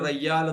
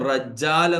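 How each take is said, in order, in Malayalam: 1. ഇരട്ടിച്ച മധ്യ വ്യഞ്ജനം y ശബ്ദമാണ്. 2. ഇരട്ടിച്ച മധ്യ വ്യഞ്ജനം j ശബ്ദമാണ്. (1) "യു എയിൽ റയ്യാൽ എന്ന് പറയും" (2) "അതാണ് റജ്ജാൽ എന്നത്"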